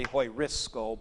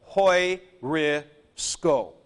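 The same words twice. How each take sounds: First: Hoi-risco, rushed and mumbled low, the sk slurred; sloppy version. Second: Hoi-risco, very slow and crisp with sk kept together; careful version. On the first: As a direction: slur hoi-risco quickly and softly. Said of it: "You tend to slop over on that". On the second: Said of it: "but really". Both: Shown as a demonstration.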